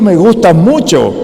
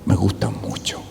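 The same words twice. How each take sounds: First: It is spoken loudly, projected to a far audience. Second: It is spoken quietly, as to someone close. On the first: It is aimed at the back rows of the audience. "tengo que decirle al de la fila veinte que pagó la entrada" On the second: It is said intimately to the partner on stage. "si yo le digo a ella"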